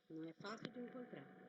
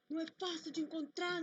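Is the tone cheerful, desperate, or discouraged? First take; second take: discouraged; desperate. First: It is said in a discouraged, dispirited tone. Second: It is said in a desperate, anguished tone.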